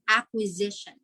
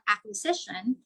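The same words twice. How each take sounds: First: The middle consonant is a buzzing Z sound. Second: The middle consonant is a hissing S sound. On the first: The speaker calls it right. "we pronounce it as Z" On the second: The speaker calls it wrong. "It's not acquisition"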